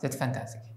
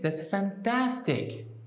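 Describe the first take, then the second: First: The voice is flat with little pitch change. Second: The voice is lively with varied pitch. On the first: The speaker does not care. The speaker calls it wrong. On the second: The speaker really cares and is pleased. The speaker calls it right.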